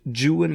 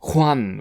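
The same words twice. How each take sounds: First: The name is said with an anglicized pronunciation. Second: The name is said with a Spanish pronunciation. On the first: It refers to the poem's character. "Byron pronounced the name of his hero Juan" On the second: It refers to the hero of traditional legend. "which I believe to be the correct Spanish pronunciation"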